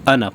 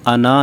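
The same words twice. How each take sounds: First: The final vowel is kept short. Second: The final vowel is drawn out long. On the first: The speaker calls it right. "बल्कि अना पढ़ेंगे, यानी ये अलिफ नहीं पढ़ी जाएगी" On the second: The speaker calls it wrong. "इसको हम अना नहीं पढ़ेंगे"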